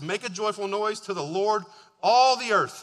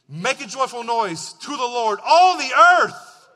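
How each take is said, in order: First: It is read in a plain, flat way. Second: It is read with lively, excited energy.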